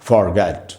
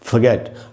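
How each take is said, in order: First: It is said in an American accent. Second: It is said in a British accent. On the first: "American English में" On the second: "British English में"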